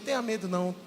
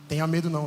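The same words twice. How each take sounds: First: It is said tenderly and reassuringly. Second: It is said hesitantly with an ominous undertone. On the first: It is simply a comfort and an affection. "como um pai dizendo" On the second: Something difficult is on its way. "É porque a coisa vai pegar"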